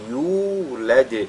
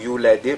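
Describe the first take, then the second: First: The first vowel is drawn out long. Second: The first vowel is said short. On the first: The speaker calls it right. "mais yulad, ... c'est de cette façon-là" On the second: The speaker calls it wrong. "il ne faudrait pas lire yu, yulad"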